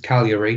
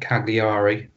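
First: The G sound is silent. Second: The G sound is pronounced. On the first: The speaker calls it right. "it's Cagliari, There's a silent G" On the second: The speaker calls it wrong. "not Cagliari"

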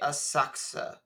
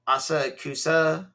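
First: The ku syllable is reduced to k. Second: The ku syllable is fully pronounced. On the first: The speaker calls it right. "they don't say ku, they say asaksa" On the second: The speaker calls it wrong. "I feel like I'm saying that wrong"

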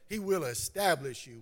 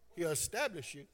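First: It is said in a standard, full form. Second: It is said with Southern speech, dropping a sound.

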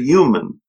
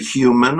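First: It starts with a y sound, no h. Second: It starts with a breathy h sound. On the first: "I say human. Y-U-M-A-N" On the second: "I don't say those H's like human. I don't say human"

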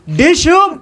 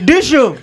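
First: It is said with much more energy. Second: It is said with less energy.

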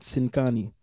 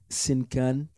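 First: It is said with a Sudanese accent. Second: It is said with a French accent. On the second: This is how people in France say it.

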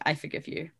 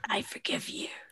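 First: It is said in the narrator's plain voice. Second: It is said in a put-on character voice.

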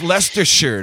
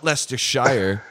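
First: It is pronounced the British way. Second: It is pronounced the American way. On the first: The speaker calls it right. "It's Leicestershire" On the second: The speaker calls it wrong. "not Leicestershire"

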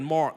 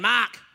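First: It is said in an American accent. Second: It is said in an Australian accent.

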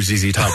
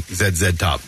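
First: Each Z is said like English 'zee'. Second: Each Z is said like French 'zed'. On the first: "I can't hear ZZ Top" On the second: "without thinking automatically"

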